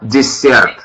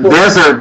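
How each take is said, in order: First: The stress is on the second syllable. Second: The stress is on the first syllable. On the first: It means a sweet course after a meal. The speaker calls it right. "the accent is on the second syllable" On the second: It means a dry, sandy region. The speaker calls it wrong. "Это пустыня"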